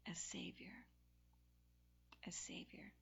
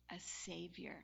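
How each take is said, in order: First: Whispered "a Savior", no voice at all. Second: Low and soft, held back. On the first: Preacher whispering "a Savior" to the room. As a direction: let "a Savior" fall to a bare whisper. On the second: Preacher softly naming the Savior. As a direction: say it gently, almost under the breath. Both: Acted.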